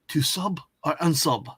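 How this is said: It is said in a put-on foreign-sounding accent.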